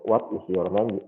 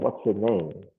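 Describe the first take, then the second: First: The words what is are said in full. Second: The words what is are shortened to what's.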